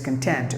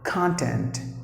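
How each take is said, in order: First: The stress is on the second syllable. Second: The stress is on the first syllable. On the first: It means satisfied or happy. "with the second syllable stressed" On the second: It means stuff or material. "If you give the stress for the first syllable, it's a noun"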